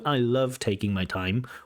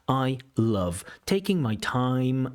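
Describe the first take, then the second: First: The stress timing sounds natural and even. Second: The stress timing sounds slightly uneven. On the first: The speaker calls it right. "it should come out more like" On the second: The speaker calls it wrong. "stress timing is just slightly out. That's what the candidate sounds like"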